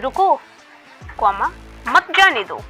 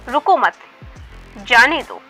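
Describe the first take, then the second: First: It has a pause after the first word. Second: It runs on without a pause after the first word.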